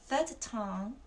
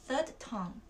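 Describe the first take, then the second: The two takes are said the same way.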